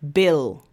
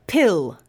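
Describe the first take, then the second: First: "bill" with B, lower pitch; voiced B demo. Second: "Pill" with a puffed P; isolated "Pill", air released on the P; unvoiced P demo. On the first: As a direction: start "bill" without a puff of air. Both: Shown as a demonstration. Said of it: "comparing the sounds in these".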